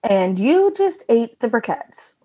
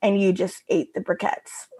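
First: Sitcom punchline reading. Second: Quieter, dropped punchline after a pause; let-down punchline. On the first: Giving co-hosts a sitcom-style reading, slow and pointed. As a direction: draw out "you", stretch the line for comic effect. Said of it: "give you a reading on it". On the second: Showing co-hosts the strip's pacing, deflated ending. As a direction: let the line fall away, understated. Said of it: "the pacing of this whole strip". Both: Shown as a demonstration.

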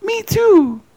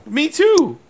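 First: Very high, mock English accent; nice English accent. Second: High-pitched mock-dainty reply. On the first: Joking as the English woman interviewer, high nice English accent. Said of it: "in a real nice English accent". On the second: Joking as the English interviewer answering the singer, high pitch. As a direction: squeak it out far above your usual voice. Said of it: "I just said it high pitch".

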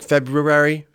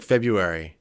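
First: "February" with both Rs, FEB-roo-ary; full pronunciation. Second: "February" as FEB-yoo-ary; common pronunciation. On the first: Giving friend an example word, "February" as FEB-roo-ary. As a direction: sound the first R in "February". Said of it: "it's February, but it's hard to say". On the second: Showing how people say it, "February" as FEB-yoo-ary. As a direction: drop the first R in "February", yoo instead. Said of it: "so people say February". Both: Shown as a demonstration.

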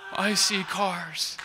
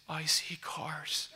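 First: Louder, drawn-out cry of wonder; tearful amazement. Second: Hushed, drawn-out whisper of disbelief; tearful awe. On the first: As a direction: imitate her astonished outburst, slowly. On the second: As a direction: imitate her stunned whisper, very slowly. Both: Retold or imitated. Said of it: "tears started running".

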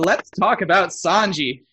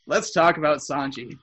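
First: Slow, louder, drawn-out topic intro; slow, deliberate segue to Sanji; slow announcement. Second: Said in the usual way. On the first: Shown as a demonstration. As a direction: lean in and stretch it out.

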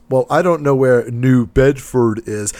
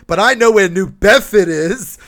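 First: Said in the usual way. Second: "New Bedford" said the local way, like New Bedfid, higher and louder; local Massachusetts accent. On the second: Retold or imitated. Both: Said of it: "He was from the area".

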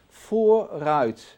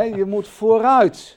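First: "vooruit" said with a firm falling tune; stressed vooruit. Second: "vooruit" much louder, higher and slow; loud slow emphasis. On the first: Teacher explains forward like a car, firm "vooruit". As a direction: land "vooruit" firmly downward. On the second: Teacher urges christians forward, loud slow "vooruit". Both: Shown as a demonstration. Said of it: "like in a car, forward".

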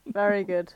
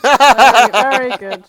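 First: Said in the usual way. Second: Very loud, laughing through the words; loud laughing praise. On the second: Real, not acted. Host loudly cheering a co-host's pun, laughing. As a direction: belt out the praise while cracking up.

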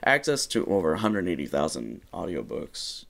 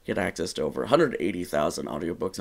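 First: Said in the usual way. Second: Quick upbeat radio DJ read; morning DJ voice. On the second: Shown as a demonstration. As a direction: pitch it like a morning radio host. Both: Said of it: "I'm doing this in morning D J now".

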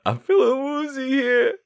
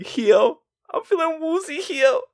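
First: Put-on much higher, childlike woozy voice; woozy Stu. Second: Put-on "heel" said for "here", much higher childish voice. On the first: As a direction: say "I'm feeling woozy here" high and babyish. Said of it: "he say it with, like, a W R". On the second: Shown as a demonstration. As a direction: swap R for W in "woozy heel", high and babyish. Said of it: "with, like, a W R".

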